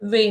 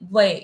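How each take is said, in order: First: The vowel is a plain 'e' sound. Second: The vowel is an 'ai' sound. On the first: The speaker calls it wrong. "वे नहीं" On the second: The speaker calls it right. "नहीं वै"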